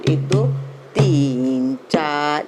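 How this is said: The third count is held long before the fourth. The speaker calls it right. "तीसरी मात्रा को हमें लंबी लेना है"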